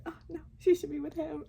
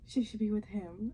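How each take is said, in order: First: High, quick, hammed-up change of heart; retold torn reaction. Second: Mildly excited retold reaction; retold sudden conviction. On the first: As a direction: act out being won over all over again, higher and faster. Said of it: "And then the next guy". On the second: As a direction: act out being won over by a suitor. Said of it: "each time we were meeting one of the guys".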